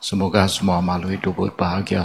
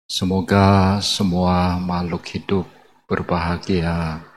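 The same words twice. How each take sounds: First: The phrase is recited rather quickly. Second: The phrase is recited slowly and calmly. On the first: "pengucapannya itu agak cepat" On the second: "pelan-pelan saja"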